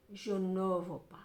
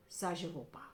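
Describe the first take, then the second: First: A slow whispered refusal; chuchoté. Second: Said in the usual way. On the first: Acted. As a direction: breathe the words, no voice, slowly. Repeats refusal, then whispers it. (refus chuchoté lentement)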